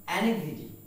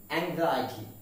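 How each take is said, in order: First: Anxiety as "AN-ig-zi-tee"; short I sounds and a GZ in anxiety; common mispronunciation. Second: Anxiety as "ang-ZY-uh-tee"; long I after a Z sound in Anxiety; correct pronunciation. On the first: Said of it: "we commonly pronounced it as". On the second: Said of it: "the pronunciation is anxiety". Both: Shown as a demonstration.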